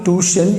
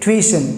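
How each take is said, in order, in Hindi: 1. पहला अक्षर "too" जैसा लगता है। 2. पहला अक्षर "twi" जैसा लगता है। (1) "It's called not tuition" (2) "you have to say tuition. Twi"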